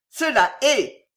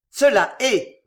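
First: Harsh, raised, hate-filled confirmation; hoarse, hateful, violent. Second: Loud, emphatic confirmation; growled. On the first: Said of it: "d'une voix plus rauque, plus haineuse, plus violente". (voix rauque, haineuse et violente) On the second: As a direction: growl it as a firm verdict. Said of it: "gronda le cardinal". (affirmation grondée, forte) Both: A narrator's reading.

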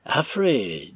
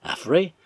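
First: Understated severe address; stern. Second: Higher, louder parroted name; mimicking echo. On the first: Arthur addresses Affrey about the stranger, stern. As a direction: say the name aloud with restrained severity. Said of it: "dit tout haut et d'un ton sévère". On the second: Stranger repeats Arthur's call to Affrey, mimicking. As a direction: throw the name back, pitched up. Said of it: "répéta l'inconnu à son tour". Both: A narrator's reading.

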